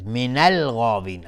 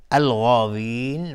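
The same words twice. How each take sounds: First: Said in the usual way. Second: الغاوین with the final long vowel stretched out slowly; elongated madd. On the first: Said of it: "الف لام قمری". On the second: Shown as a demonstration. Tajweed teacher showing madd on الغاوین, stretched slowly. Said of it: "مد عارض سکون به مقدار دو یا چهار یا شش حرکت".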